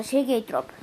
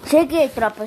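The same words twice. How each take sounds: First: Said in the usual way. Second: Loud, cheerful arrival call; loud greeting. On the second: Real, not acted. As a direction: announce yourself to the chat. Announcing return to stream.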